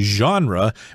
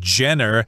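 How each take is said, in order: First: The word is said with a French-like pronunciation. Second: The word is said with an anglicized pronunciation. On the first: The speaker calls it right. "You would say genre" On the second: The speaker calls it wrong. "don't say genre, that's wrong"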